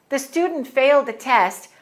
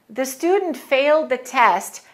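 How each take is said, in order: Both takes have the same delivery.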